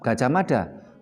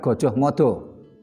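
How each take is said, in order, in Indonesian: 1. Vokalnya dilafalkan sebagai bunyi a terbuka. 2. Vokalnya dilafalkan sebagai bunyi o. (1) "membacanya tetap Gajah Mada" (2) "bukan Gojoh Modo"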